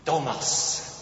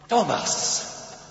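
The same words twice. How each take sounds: First: The name sounds admiring and full of appreciation. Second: The name sounds happy, delighted and surprised. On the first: The speaker respects and values the person. "bewundernd, anerkennend" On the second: The speaker is glad to see the person again. "beglückend, freudig, erstaunt"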